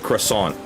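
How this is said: It is said with an American accent. "the way people pronounce croissant in America"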